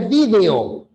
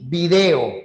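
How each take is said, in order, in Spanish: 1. El acento cae donde lo ponen los hablantes de España. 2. El acento cae donde lo ponen los hablantes peruanos. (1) "El español dice video" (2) "Nosotros decimos video"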